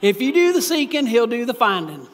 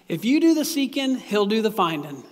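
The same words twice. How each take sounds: First: It is spoken in a put-on rural local accent. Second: It is spoken in the speaker's ordinary accent. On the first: "I should be from Perry County and talk like this" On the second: "I like kind of saying it like this too"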